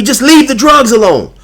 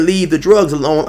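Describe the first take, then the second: First: Much higher and louder put-on voice on leave the drugs alone; whiny mocking imitation. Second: Said in the usual way. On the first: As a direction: sneer it like the rival, high and loud. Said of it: "popping off at the pie hole". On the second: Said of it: "So when he said".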